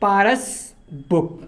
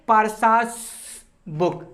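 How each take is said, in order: First: The name ends without an extra hissing syllable. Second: The name ends with an extra hissing syllable. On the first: The speaker calls it right. "हम यहां क्या लिखेंगे" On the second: The speaker calls it wrong. "अगर हम apostrophe एस लगाते हैं तो sound क्या निकल के आएगा"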